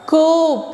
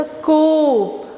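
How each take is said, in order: First: Teacher stressing the ओ in कोप; stretched long O. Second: कोप with the ओ drawn out long; कोप, long O held; stretched long O. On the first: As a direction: lean on the ओ in कोप. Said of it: "ओ हम थोड़ा loudly बोलेंगे". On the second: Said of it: "तो ओ पे हमारा जोर पड़ेगा". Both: Shown as a demonstration.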